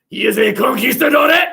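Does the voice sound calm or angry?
angry. It is said angrily.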